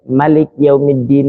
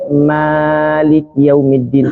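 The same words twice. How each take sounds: First: The vowel after the m is cut short. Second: The vowel after the m is held long. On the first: This follows another accepted reading tradition. "dibacanya pendek" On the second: This follows one accepted reading tradition. "mimnya dibaca panjang tadi"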